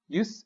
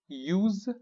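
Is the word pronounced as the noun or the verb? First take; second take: noun; verb. First: It is pronounced as the noun form. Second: It is pronounced as the verb form. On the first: It names the act or fact of using. "Use is the noun" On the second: It names the action of using. "Use is verb"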